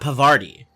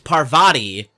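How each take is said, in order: First: The r sound closes the second syllable. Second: The r sound closes the first syllable. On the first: The speaker calls it wrong. "not Pavarti" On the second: The speaker calls it right. "It's Parvati"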